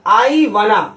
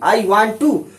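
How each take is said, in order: First: Want and to blend into one reduced word. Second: Want and to are said as separate full words. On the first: "वांट को लिखेंगे वाना" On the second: "जैसे ये लग रहा है ना आई वॉन्ट टू"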